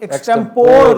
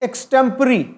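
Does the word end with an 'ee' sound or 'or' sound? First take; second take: or; ee. First: The word ends with an 'or' sound. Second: The word ends with an 'ee' sound. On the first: The speaker calls it wrong. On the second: The speaker calls it right.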